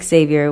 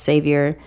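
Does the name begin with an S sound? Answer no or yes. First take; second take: no; yes. First: The name does not begin with an S sound. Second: The name begins with an S sound. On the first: The speaker calls it wrong. "Not Xavier" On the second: The speaker calls it right. "with an S"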